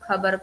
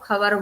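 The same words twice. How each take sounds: First: It is said with standard Hindi pronunciation. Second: It is said with a regionally influenced pronunciation. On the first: The speaker calls it right. "खबर को" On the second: The speaker calls it wrong. "प्रांतीय प्रभाव झलकता है"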